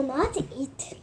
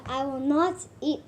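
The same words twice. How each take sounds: First: Unvoiced whisper; whispered promise. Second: Said in the usual way. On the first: Whispering a promise to spare Louis. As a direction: breathe it as a secret vow.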